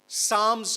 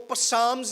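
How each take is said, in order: First: The word begins with an s sound. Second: The word begins with a sounded p. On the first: The speaker calls it right. "लेकिन पी उसमें silent है। ... साम्स कहना है" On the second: The speaker calls it wrong. "इसको पसाम्स नहीं कहना"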